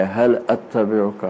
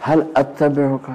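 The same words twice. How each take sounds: First: Softer, slow, deeply humble asking; bow your voice down as a humble student; humble plea. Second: Said in the usual way. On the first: Shown as a demonstration. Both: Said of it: "تواضع کی انتہا ہے".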